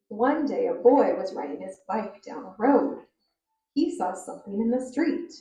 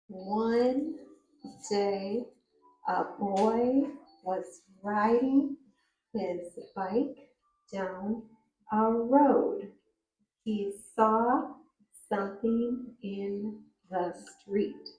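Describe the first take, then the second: First: It is read at a moderate, even pace. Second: It is read slowly, word by word.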